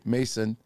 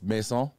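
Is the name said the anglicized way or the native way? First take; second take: anglicized; native. First: The name is said with an anglicized pronunciation. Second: The name is said with its native pronunciation. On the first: This is how English speakers usually say it. The speaker calls it wrong. "Us gringos say Mason" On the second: This is how the name's owner says it. The speaker calls it right. "he said it's Maison DesChamps"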